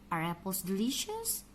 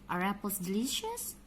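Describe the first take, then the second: No difference in how they are said.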